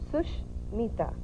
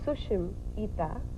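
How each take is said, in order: First: The name is divided after 'Sush'. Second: The name is divided after 'Sushim'. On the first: The name means a good friend. "The first way is Sushmita. Sush means good. Mita means friend" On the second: The name means beautiful eyes. "the second way, which is Sushim Ita. Sushim means beautiful. Ita means eyes"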